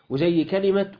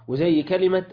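Both takes have the same delivery.

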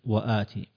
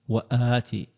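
First: One glottal stop is followed by a long vowel. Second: Two glottal stops are heard at the start. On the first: "فسهلت وآتي" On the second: "أصلها"

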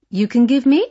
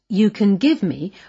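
First: The voice rises at the end like a question. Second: The voice falls at the end like a statement. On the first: It is asked as a question. "turned into a question by lifting her voice at the end" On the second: It is a plain statement. "It's really a statement"

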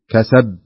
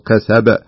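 First: The final b is weak and nearly unheard. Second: The final b is released with a clear bounce. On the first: The speaker calls it wrong. "كأنك ما تنطق الباء" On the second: The speaker calls it right. "لا بد أن تقول كسب بهذا الشكل"

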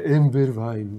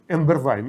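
First: The phrase is said in a soft, tender way. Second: The phrase is said in a plain, flat way. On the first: The speaker calls it right. "Они очень ласково говорят всегда" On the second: The speaker calls it wrong. "Это нельзя сказать «эмбервайн»"

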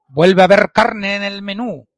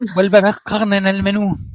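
First: The R sounds are rolled at the tongue tip. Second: The R sounds are made in the throat. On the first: This is how ordinary speakers say it. "No pronunciaban R como en vuelve a haber carne en el menú" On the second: This is how the orcs said it. "pronunciaban la R gutural"

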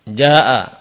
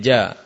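First: The word is said in its full form. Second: The word is said in a shortened pausal form.

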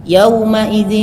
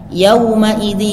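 The two takes are said the same way.

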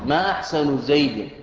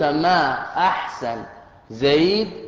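First: Ahsan ends in the vowel u. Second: The words end with no case vowels. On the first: It asks what is good about Zayd. "ما أحسن بالرفع" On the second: The intended meaning does not show. "هكذا بالتسكين"

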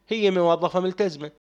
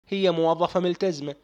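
Both takes have the same delivery.

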